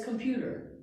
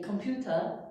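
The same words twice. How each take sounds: First: "computer" with a clear R at the end; American English "computer" ending in a full R. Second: "computer" with no R at the end, "computah"; British computer. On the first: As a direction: sound the final R in "computer". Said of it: "For us, it's computer". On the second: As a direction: drop the final R in "computer". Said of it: "no R sound". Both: Shown as a demonstration.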